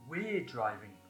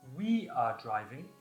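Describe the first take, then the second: First: The verb is contracted onto the pronoun. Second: The verb is said in full as 'are'. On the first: "the short form" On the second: "the long form"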